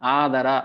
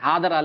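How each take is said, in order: First: The first vowel is said long. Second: The first vowel is said short. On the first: The speaker calls it right. "ಅ ಆ ಇ ಈ" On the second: The speaker calls it wrong. "ಏ ಆದರ ಅಲ್ಲ ರೀ ಅದು"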